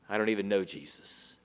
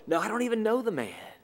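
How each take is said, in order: First: Quick, much softer and lower mumbled denial; nervous denial. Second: Quick, firmer second denial; insistent denial. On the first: Peter denying Jesus to a bystander, quick low mumble. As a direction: brush it off fast under your breath. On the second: Peter denying Jesus again to the crowd, quick and firmer. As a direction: hurry it out, pushing the accuser off. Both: Acted.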